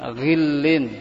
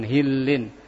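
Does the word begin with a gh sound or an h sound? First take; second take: gh; h. First: The word begins with a throaty gh sound. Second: The word begins with a plain h sound. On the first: The speaker calls it right. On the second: The speaker calls it wrong.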